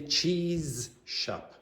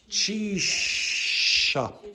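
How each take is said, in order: First: The z and sh are said as separate sounds. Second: The z and sh merge into one long sh. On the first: The speaker calls it wrong. "You do not say cheese shop" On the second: The speaker calls it right. "It becomes like a long shh"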